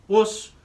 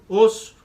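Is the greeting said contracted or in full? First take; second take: contracted; contracted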